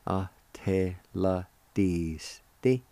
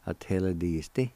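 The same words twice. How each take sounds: First: "Ateladisti" very slow, every syllable drawn out; slow sounding-out. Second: "Ateladisti" run smoothly as one word; joined-up, normal pace. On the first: Teacher showing how join is pronounced, slow sounding-out. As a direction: stretch Ateladisti into measured syllables. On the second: Teacher giving the word for join, joined-up normal pace. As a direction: say Ateladisti whole at talking speed. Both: Shown as a demonstration. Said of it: "It's pronounced like this".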